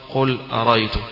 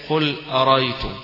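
No difference in how they are said.

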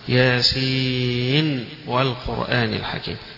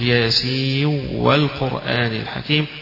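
First: The final n is pronounced clearly before w. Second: The final n merges into the following w. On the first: "سيظهرونها" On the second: "يدغم فيقول"

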